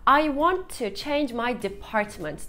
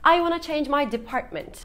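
First: 'Want to' is said in full. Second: 'Want to' is reduced to 'wanna'. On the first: "I want to change my department diye bir cümle var elimizde" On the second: "çoğu zaman wanna şeklinde kısaltılabilir"

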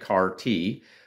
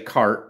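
First: It is said as two syllables. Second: It is said as one syllable. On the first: The speaker calls it right. "they say CAR-T" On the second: The speaker calls it wrong. "they don't say CART"

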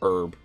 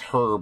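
First: The word begins without an h sound. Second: The word begins with an h sound. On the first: This is the way Americans say it. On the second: This is the way the British say it.

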